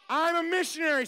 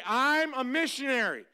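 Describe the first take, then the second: First: Higher, louder I'm a missionary as a chant lead; louder call-and-response. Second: Said in the usual way. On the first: Shown as a demonstration. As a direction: push I'm a missionary up for the kids to echo. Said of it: "Say it". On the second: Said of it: "I want you to say".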